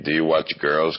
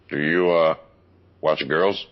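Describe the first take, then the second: First: It is said in his own normal voice. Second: It is said imitating his dad's voice.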